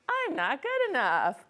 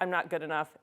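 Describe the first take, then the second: First: It is said in a silly voice. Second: It is said in a normal voice.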